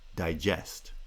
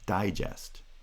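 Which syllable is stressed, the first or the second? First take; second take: second; first. First: The main stress is on the second syllable. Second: The main stress is on the first syllable. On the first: It is the verb. "the second foot is the strong foot in the word" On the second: It is the noun. "the pitch of the first syllable, because it's primary stress, is higher than the pitch of the second syllable"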